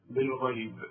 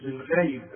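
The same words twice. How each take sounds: First: Lower, softer بالغيب with proper gh; correct ghayn. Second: بالغيب with the gh said wrongly; mistaken ghayn. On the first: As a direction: say بالغيب carefully with its throaty gh. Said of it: "خدت انت الغين". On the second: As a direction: demonstrate a faulty gh in بالغيب. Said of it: "ما تقوليش بالغيب". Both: Shown as a demonstration.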